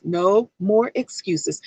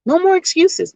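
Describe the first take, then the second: First: "No more excuses" slow and lower; slow emphatic. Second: Firm declaration. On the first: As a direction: drag out "No more excuses" with weight. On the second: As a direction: punch "more" in "No more excuses" hard. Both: Shown as a demonstration.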